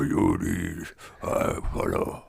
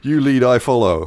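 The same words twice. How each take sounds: First: It is said in a gritty, gravelly voice. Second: It is said in a plain voice.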